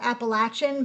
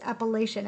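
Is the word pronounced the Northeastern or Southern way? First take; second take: Southern; Northeastern. First: It has the Southern pronunciation of the word. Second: It has the Northeastern pronunciation of the word. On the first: The speaker calls it wrong. "some people in the South call it" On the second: The speaker calls it right. "that's how we pronounce it in the Northeast"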